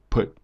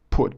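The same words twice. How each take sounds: First: The vowel is said with flat, unrounded lips. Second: The vowel is said with rounded lips. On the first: The speaker calls it right. "but you say kind of put" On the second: The speaker calls it wrong. "you don't say put"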